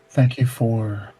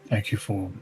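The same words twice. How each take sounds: First: It is said in the speaker's ordinary voice. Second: It is said in an attempted put-on accent. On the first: "I'm just gonna do my regular voice" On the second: "I can't get the accent right"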